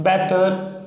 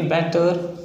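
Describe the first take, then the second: First: Said in the usual way. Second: बेटर said with an open e, not बटर; corrected बेटर. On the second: Shown as a demonstration. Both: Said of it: "बटर नहीं, बेटर".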